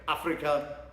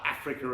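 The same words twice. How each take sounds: First: It is pronounced the German way. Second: It is pronounced the English way. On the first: The speaker calls it right. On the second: The speaker calls it wrong.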